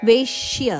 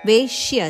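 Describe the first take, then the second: Both takes have the same delivery.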